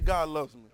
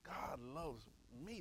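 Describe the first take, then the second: First: The phrase is said at a normal pace. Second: The phrase is said slowly and deliberately.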